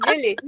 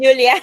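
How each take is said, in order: First: Said in the usual way. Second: "Julia" said the Spanish way, ending in -a, a bit louder; name said as "Julia", the Spanish version; Spanish-style name. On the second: Shown as a demonstration. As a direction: slip into the Spanish form "Julia", ending on a clear -a. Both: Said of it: "I have the Spanish thing".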